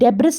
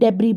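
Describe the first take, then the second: First: The final s sound is pronounced. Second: The final s sound is silent. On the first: "लिखा है" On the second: "हम डेबरी बोलेंगे. ठीक है, ऐसे साइलेंट"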